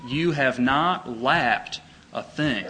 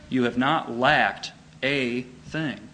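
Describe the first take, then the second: First: "You have not lacked a thing" read slowly, each word weighed; slow emphatic reading. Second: "not" pressed, said slowly and weighty; stress on not. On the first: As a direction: let every word land slowly. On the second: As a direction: lean hard on "not", unhurried. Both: Shown as a demonstration. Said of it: "That's a wonderful way of saying it".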